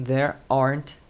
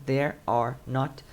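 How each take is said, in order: First: "there aren't" joined into two beats; contracted. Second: "there are not" slowly, every word apart; uncontracted. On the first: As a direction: glue the not onto the are in "there aren't". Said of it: "não there are not". (contraído, "there aren't" junto) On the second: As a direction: spell out all three words of "there are not". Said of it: "sem contração seria there are not". (sem contração, "there are not" bem pausado) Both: Shown as a demonstration.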